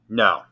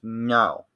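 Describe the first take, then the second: First: It is said in a firm, serious way. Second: It is said in a bratty, playful way.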